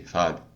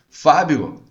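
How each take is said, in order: First: It is said flatly, with a reluctant tone. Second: It is said warmly, with a smiling voice. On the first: The speaker is unwilling to help the caller. The speaker calls it wrong. "É diferente de" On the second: The speaker is glad to help the caller. The speaker calls it right. "você tem que atender o cliente sorrindo, mostrando cordialidade"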